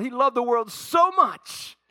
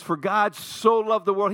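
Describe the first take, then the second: First: "so much" drawn out, high and loud; stress on so much. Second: Said in the usual way. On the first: Shown as a demonstration. Preacher spells out how some hear "so much", pressing the words. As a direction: lean on "so much" as if that is the meaning.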